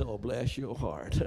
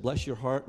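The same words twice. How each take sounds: First: Slow Southern drawl on "Oh, bless your heart"; slow, laughing Southern "bless your heart". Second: Said in the usual way. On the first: Retold or imitated. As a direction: say it like a sweet Southern put-down with a laugh. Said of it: "take it the Southern way". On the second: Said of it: "When he said".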